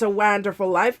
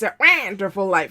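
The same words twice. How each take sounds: First: The first syllable of Wonderful is said normally. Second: The first syllable of Wonderful sounds like a quack. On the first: The speaker calls it wrong. "It's not" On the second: The speaker calls it right. "You have to quack the wah"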